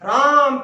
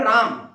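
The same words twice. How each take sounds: First: The name is called loudly with a drawn-out vowel. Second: The name is said plainly at normal length. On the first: The person has gone some distance away. "आ की जो ध्वनि है वो लगातार बढ़ गई है" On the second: The person is sitting nearby. "जैसे हमारे पास कोई बैठा है राम"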